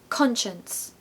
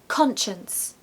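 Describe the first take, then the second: The two takes are said the same way.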